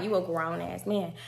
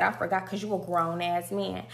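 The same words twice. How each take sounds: First: Mocking "grown-ass" in a lightly lowered, softer voice; a light mock of "You a grown-ass man". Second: Said in the usual way. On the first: She mocks Juvie's claim to be a grown man. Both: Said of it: "But I was mocking him like".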